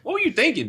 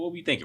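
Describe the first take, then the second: First: It sounds scolding, like a rhetorical reprimand. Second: It sounds calm, like a genuine open question. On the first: No answer is wanted. The speaker calls it wrong. "a lot of times it's rhetorical" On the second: An honest answer is wanted. The speaker calls it right. "I got to change the tone"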